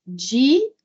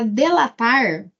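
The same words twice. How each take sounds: First: DI, LA, TAR, split by pauses, with an i in DI; syllable by syllable. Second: Delatar said in one go with DE, an e sound; clear DE. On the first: Teacher correcting the word, breaking it into syllables. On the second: Teacher reading the wrong word in the question, sounding DE. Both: Shown as a demonstration. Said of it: "não, é para".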